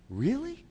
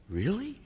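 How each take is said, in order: First: Very high disbelieving rise; softer, climbing astonished really; higher incredulous really. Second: High, rising doubtful question; soft, very high disbelieving really; incredulous really. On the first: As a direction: push the doubt even further up. Doubting again, higher. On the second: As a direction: ask it as if you can't believe it. Doubting reply, voiced. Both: Retold or imitated.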